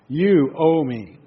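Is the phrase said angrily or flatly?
flatly. It is said in a flat, mild tone. The speaker calls it wrong. "we don't do it like that"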